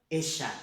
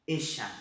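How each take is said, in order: Both takes have the same delivery.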